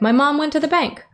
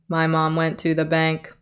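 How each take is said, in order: First: It is read with a lively, varied rhythm. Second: It is read in a flat, even tone. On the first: "we could give that kind of a rhythm" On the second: "Or no cadence, where we just straight tone it"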